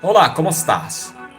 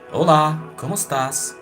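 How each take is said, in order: First: The voice is at normal strength. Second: The voice is noticeably softer. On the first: "It's not that deep nor high pitched" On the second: "Or softer"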